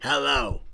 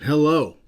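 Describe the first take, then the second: First: It is said imitating Uncle Leo's voice. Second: It is said in his own normal voice.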